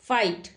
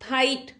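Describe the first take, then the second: First: It begins with an f sound. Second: It begins with an aspirated p sound. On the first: The speaker calls it right. "क्या होता है?" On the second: The speaker calls it wrong. "फाइट शब्द नहीं होता"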